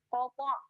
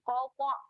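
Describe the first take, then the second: The two takes are said the same way.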